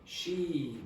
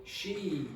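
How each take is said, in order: First: It is emphasized by lengthening, with little pitch change. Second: It is emphasized by lengthening, with little pitch change.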